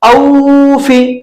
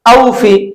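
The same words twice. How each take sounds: First: The vowel is drawn out and stretched. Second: The vowel is said softly and quickly. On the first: The speaker calls it wrong. "खींच कर नहीं पढ़ा जाता है ... इस तरह से नहीं पढ़ेंगे" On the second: The speaker calls it right. "उसको नर्म लहजे में जल्दी पढ़ते हैं"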